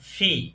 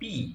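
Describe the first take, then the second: First: The first consonant is aspirated, with a puff of air. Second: The first consonant is plain, without a puff of air. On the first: The speaker calls it right. "এটা হবে ফি।" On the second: The speaker calls it wrong. "এই যে এটা আমরা বলি যে পি। পি নামে ইংরেজিতে কোনো অক্ষর নেই।"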